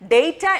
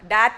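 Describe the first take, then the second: First: It is said with a British pronunciation. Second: It is said with an American pronunciation. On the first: "ഡേറ്റ എന്നുള്ളത് British ഇംഗ്ലീഷുമാണ്" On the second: "ഡാറ്റ എന്നുള്ളത് American ഇംഗ്ലീഷും"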